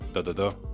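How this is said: Syllables are equal length, Nigerian English rhythm.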